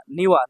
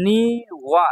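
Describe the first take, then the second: First: Said in the usual way. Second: নিওয়া with both syllables stretched. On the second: Shown as a demonstration. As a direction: draw out নিওয়া in two slow beats. Teacher sounds out new word.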